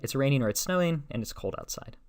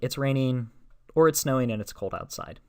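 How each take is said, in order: First: The main break comes after the word snowing. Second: The main break comes after the word raining. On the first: It is raining or snowing, and it is also cold. "for our first one" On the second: Either it is raining, or it is snowing and cold. "The second one"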